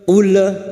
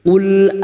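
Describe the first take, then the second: First: The L is bounced with an echo vowel. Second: The L stops cleanly with no echo vowel. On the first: The speaker calls it wrong. "Jangan dibaca ule ule ya, tidak boleh dipantulkan" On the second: The speaker calls it right. "maka cukup masuk ul"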